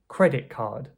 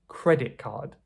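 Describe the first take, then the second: First: The t in credit turns into k. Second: The same.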